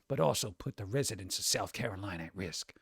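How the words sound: It is read in a scratchy, put-on character voice.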